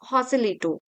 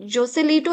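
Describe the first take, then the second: First: The name begins with an h sound. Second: The name begins with a j sound. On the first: The speaker calls it right. "It's हॉसेलिटो। सो जे को एच pronounce किया जाता है।" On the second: The speaker calls it wrong. "It is not जोसेलिटो"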